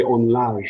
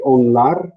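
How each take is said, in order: First: "onlar" with the final R hissing towards "zh"; native Turkish pronunciation. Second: "onlar" with a clear R at the end; textbook pronunciation. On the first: Teacher imitating Turkish speakers, "onlar" with fricative final R. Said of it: "They'll say". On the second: Teacher giving the technical Turkish form, "onlar" with clear final R. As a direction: say "onlar" ending on a true R. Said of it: "which is technically onlar". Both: Shown as a demonstration.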